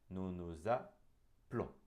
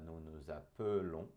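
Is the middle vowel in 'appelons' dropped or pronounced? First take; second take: dropped; pronounced. First: The middle vowel of appelons is dropped entirely. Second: The middle vowel of appelons is fully pronounced. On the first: "como se ele nem existisse" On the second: "se você quiser falar nous nous appelons"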